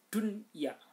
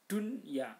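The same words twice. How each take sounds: Both takes have the same delivery.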